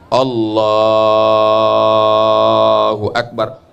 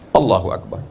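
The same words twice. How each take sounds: First: The phrase is drawn out long. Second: The phrase is said short and quick.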